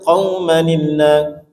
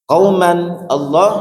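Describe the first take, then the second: First: A linking 'ni' sound joins the two words. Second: The words are said without a linking nun sound.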